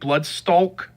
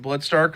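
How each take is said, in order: First: The name ends with an l sound, like stalk. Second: The name ends with an r sound, like stark. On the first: This is the intended form of the name. "his name is supposed to be Bloodstalk" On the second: This is how most people say the name. "I'm just gonna pronounce it Bloodstark like everyone else"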